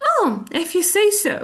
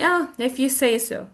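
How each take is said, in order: First: Higher, quick and agreeable; pleased acceptance. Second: Cool, unconvinced brush-off; cold, dismissive. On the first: Teacher shows the good meaning, higher and pleased. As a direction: take it as a good thing, pitched up and brisk. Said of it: "It also can mean actually a good thing". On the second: Teacher acts out doubting a claim, cold and dismissive. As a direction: concede coolly, without believing it. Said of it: "if you say so with a cold tongue". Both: Shown as a demonstration.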